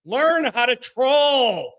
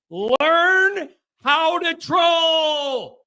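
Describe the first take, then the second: First: Said in the usual way. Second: Much higher, very slow, stretched; mock-exaggerated slow shout; drawn out. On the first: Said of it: "repeats line slower, more emphatic". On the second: Real, not acted. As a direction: stretch every word out to rub it in. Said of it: "repeated, drawn out higher".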